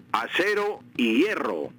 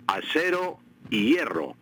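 Both takes have the same delivery.

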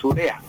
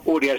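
First: "urea" stressed on the E, u-RÉ-a; correct grave stress. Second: "urea" stressed on the first syllable, ÚR-ya; incorrect stress on U. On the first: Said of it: "es urea". ("urea" con acento en la E) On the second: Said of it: "le responde que no es correcta". ("urea" con acento en la U) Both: Shown as a demonstration.

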